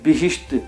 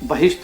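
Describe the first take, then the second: First: The first syllable has an 'i' vowel. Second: The first syllable has an 'a' vowel. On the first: This is the original Persian pronunciation. "ज़ेर लगाकर पढ़ा जाता है" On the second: This is the pronunciation used in Urdu. "Urdu में आने के बाद ये ... बहिश्त हो गए हैं"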